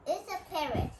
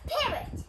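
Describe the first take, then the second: First: Said in the usual way. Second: "parrot" said high and clear, stress on PA; clear teaching pronunciation. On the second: Shown as a demonstration. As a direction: model the word parrot for kids. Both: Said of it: "P A R R O T".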